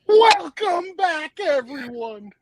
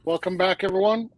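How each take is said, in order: First: It is said with more enthusiasm and energy. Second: It is said flatly, with little energy.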